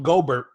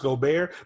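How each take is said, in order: First: The name is said with English pronunciation. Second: The name is said with French pronunciation. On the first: The speaker calls it wrong. "we're not going to pronounce his name correctly" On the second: The speaker calls it right. "he's actually French, so his name is pronounced Gobert"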